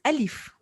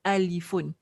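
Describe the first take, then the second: First: The word ends on a plain "f". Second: The word ends with an "un" syllable. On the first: "you do not pronounce the last huruf" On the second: "In Arabic, we call it alifun"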